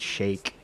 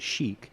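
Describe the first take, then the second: First: The word sounds like 'shake', with an 'ay' vowel. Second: The word sounds like 'chic', with an 'ee' vowel. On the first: This is how someone else said it. "it sounded like he said shake" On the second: This is how the speaker expected it to be said. "the way I thought that you would pronounce that word would be chic"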